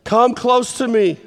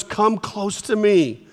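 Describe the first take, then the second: First: A slightly higher, insistent call; higher, more urgent. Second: Un po' lento: vieni vicino, dolcemente; slow and gentle. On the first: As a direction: call them closer with feeling. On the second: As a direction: draw them in slowly. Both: Shown as a demonstration. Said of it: "they're going about this fast".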